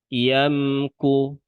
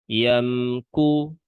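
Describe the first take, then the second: Both takes have the same delivery.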